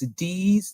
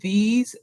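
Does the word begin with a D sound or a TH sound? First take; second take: D sound; TH sound. First: The word begins with a D sound. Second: The word begins with a TH sound.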